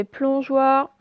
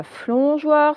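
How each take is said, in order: First: Plongeoir slowly with a clear pl; correct pl. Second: Flongeoir slowly, f replacing the p; wrong fl. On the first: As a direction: draw out plongeoir, starting with p. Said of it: "c'est plongeoir". (plongeoir lentement, « pl » bien articulé) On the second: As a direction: mispronounce plongeoir as flongeoir. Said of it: "ce n'est pas flongeoir". (flongeoir lentement, f au lieu du p) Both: Shown as a demonstration.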